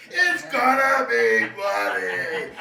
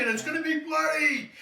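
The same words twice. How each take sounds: First: Slow, loud, drawn-out promise; slow emphatic. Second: Said in the usual way. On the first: Shown as a demonstration. Bartender hyping his drink, slow loud emphasis. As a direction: stretch every word and punch it.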